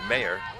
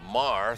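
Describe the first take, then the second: First: The name is said like 'mayer', two syllables. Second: The name is said like 'mar', one syllable. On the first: The speaker calls it right. "It's Mayer" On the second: The speaker calls it wrong. "I pronounced it Mar throughout most of her first year"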